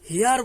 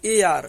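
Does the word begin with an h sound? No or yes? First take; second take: yes; no. First: The word starts with an h sound. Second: The word starts with a vowel sound. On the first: The speaker calls it wrong. "একে আমরা উচ্চারণ কিন্তু হেয়ার বলি না" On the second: The speaker calls it right. "এই উচ্চারণটাকে আমরা বলি এ আর"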